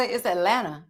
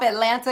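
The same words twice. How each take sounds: First: "Atlanta" with the second T gone; dropped T. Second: Said in the usual way. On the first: Shown as a demonstration. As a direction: say "Atlanta" as At-lanna. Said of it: "take that second T off Atlanta". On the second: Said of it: "take that second T off".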